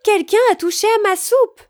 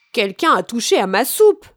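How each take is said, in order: First: Much higher, louder mother bear; Mama Bear exclaiming. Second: Louder storybook father bear; Papa Bear crying out. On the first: Mama Bear finding her soup touched, exclaiming. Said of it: "s'exclama maman ours". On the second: Papa Bear finding his soup touched, crying out. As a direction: cry out as a put-out Papa Bear. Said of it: "s'écria papa ours". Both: A narrator's reading.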